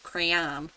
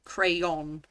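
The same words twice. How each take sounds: First: "crayon" pronounced cray-AN; rejected AN ending. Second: "crayon" pronounced cray-ON; O N ending. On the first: Brit showing the version she rejects, "crayon" as cray-AN. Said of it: "not crayon". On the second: Brit arguing from the spelling, "crayon" as cray-ON. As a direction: say "crayon" with a clear, lengthened ON. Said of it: "it's clearly an O N here". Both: Shown as a demonstration.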